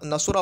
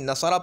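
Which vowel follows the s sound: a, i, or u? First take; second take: u; a. First: The middle consonant carries a u vowel. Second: The middle consonant carries an a vowel. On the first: "मज़मूम लेकर आते हैं" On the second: "आइन कलीमा मफतूह लेकर आते हैं"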